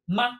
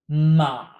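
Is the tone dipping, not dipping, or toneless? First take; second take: toneless; dipping. First: It is said lightly with no tone. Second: The pitch dips down. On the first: It turns a sentence into a question. "notice ma has no tone" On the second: It means horse. "With a dipping tone"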